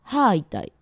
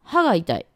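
First: The word for tooth has a lengthened vowel. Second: The word for tooth has a short vowel.

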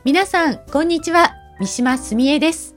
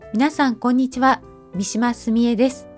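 First: The voice is projected, bright and carrying far. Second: The voice is soft and aimed very close by. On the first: The speaker aims the voice at a listener three meters away. The speaker calls it right. "次に人がいる場所、今回は3 メートルくらい先を設定します。" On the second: The speaker aims the voice only at the microphone. The speaker calls it wrong. "まずは話す位置をマイクぐらいを意識している場合です。"

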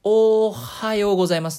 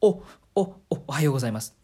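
First: The first sound is drawn out long. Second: The first sound is repeated several times.

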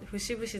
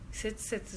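First: The word is pronounced fushibushi. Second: The word is pronounced setsusetsu. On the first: The speaker calls it right. "節々だよ" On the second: The speaker calls it wrong. "せつせつじゃないよ"

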